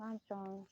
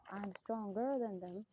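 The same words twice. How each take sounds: First: Said in the usual way. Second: Slow, leaning hard on "stronger"; stress on stronger. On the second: Shown as a demonstration. Correcting himself, slow with weight on "stronger". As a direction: draw out "stronger" to correct yourself. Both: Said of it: "That's sort of, no".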